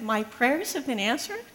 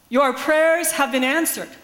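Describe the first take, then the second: First: Softer, questioning, rising on prayers; stammered disbelief. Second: Slow, louder, certain pronouncement; matter of fact. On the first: Stunned pastor repeating the grandmother's words, stammering question. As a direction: repeat it back unsure you heard right. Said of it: "I s-, stammered". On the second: Nigerian grandmother to the pastor, calm certain declaration. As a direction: say it as settled truth, no room for doubt. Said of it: "spoken as a matter of fact". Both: Retold or imitated.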